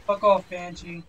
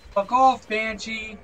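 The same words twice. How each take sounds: First: Irritated, fairly contained dismissal; annoyed. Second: Angry yell. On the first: Player swatting at a Banshee in game, annoyed. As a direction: tell it off without yelling. Swearing at an attacking enemy. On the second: Player yelling at a Banshee that keeps attacking, angry. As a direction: yell it off in exasperation. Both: Real, not acted.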